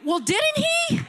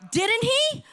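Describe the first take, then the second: First: Much higher, shouted demand; full preaching shout; climactic shout. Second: Higher, pressing question; rising preacher's call; rhetorical challenge. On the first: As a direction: push the question to its peak. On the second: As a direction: press the congregation for an answer. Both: Real, not acted. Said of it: "preacher's rhetorical challenge".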